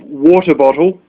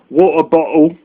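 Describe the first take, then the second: First: The t in water is a clear t. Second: The t in water becomes a glottal stop. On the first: "instead of water bottle" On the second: "when the British go"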